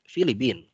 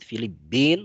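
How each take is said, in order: First: The middle consonant is single and short. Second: The middle consonant is doubled, held longer. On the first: "Boleh juga dibaca tanpa tasydid" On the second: "boleh dibaca pakai tasydid"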